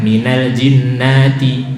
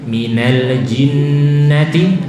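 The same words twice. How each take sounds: First: The vowel in 'na' is long. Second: The vowel in 'na' is short. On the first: The speaker calls it wrong. "banyak orang baca nanya panjang" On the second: The speaker calls it right. "nanya pendek"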